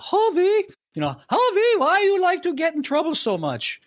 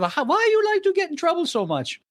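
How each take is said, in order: First: Put-on mother's Hungarian accent, much higher; imitating his Hungarian mother, pitched way up. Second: Put-on mother's Hungarian accent, much higher. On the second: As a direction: mimic the Hungarian mother scolding, high pitched. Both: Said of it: "okay, with a Hungarian accent".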